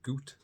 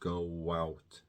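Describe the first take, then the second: First: The vowels merge with no W glide between them. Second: A W glide links the two vowels together. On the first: The speaker calls it wrong. "you don't say goot" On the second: The speaker calls it right. "you add a W sound there"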